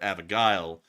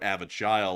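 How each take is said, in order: First: The g is said hard, as in go. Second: The g is said softly, like a j. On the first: The speaker calls it right. "like it's a G" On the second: The speaker calls it wrong. "like it's a J"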